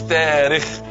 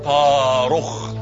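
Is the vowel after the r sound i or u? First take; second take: i; u. First: The vowel after the r is i. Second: The vowel after the r is u. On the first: The speaker calls it wrong. "مش تاريخ بكسر الراء" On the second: The speaker calls it right. "اسمه طارخ بضم الراء"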